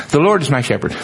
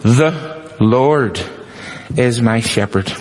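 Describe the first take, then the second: First: Quick, offhand "The Lord is my shepherd." in one breath; glanced over. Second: Slow it down and hit the word "is"; emphatic, spaced out. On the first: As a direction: rattle it off the way people skim it. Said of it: "we glance over it". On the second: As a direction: pause after "The" and "Lord", then press on "is". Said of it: "We miss it". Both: Shown as a demonstration.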